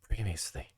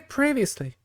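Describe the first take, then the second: First: The word is said very quietly. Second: The word is said loudly. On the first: "I'm going to speak it really quietly" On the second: "I say it too loud"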